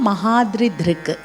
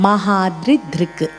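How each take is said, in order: Both takes have the same delivery.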